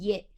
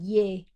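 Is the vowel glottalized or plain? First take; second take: glottalized; plain. First: The vowel is said with a glottal, creaky catch. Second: The vowel is said with a plain, smooth voice. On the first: "or it can be glottalized" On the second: "it can be a plain vowel"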